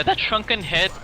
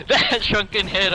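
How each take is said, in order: First: Voice cracking. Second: Said in the usual way. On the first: Real, not acted. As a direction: voice cracks on shrunken head. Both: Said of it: "my voice cracked".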